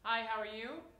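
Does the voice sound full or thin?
full. The voice is full and well supported. The speaker calls it right. "that's why I use like"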